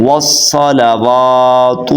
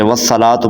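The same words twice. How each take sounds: First: Slow tajweed model of والصلوات; correct long waw. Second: Hurried, unchanted والصلاۃ; mispronounced recitation. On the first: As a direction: chant والصلوات slowly as "was-salawaatu", holding "waa". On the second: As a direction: say والصلاۃ quickly as "wassalatu", with the waw dropped. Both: Shown as a demonstration. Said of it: "واو کو لمبا نہیں کرتے".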